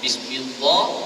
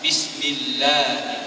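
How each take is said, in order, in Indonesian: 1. Bunyi 'l' tebal. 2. Bunyi 'l' tipis. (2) "dibaca tipiskan"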